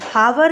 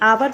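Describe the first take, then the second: First: The word begins with an h sound. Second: The word begins with a vowel sound. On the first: The speaker calls it wrong. "हावर नहीं" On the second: The speaker calls it right. "आवर पढ़ते हैं, तो इसमें एच silent होता है"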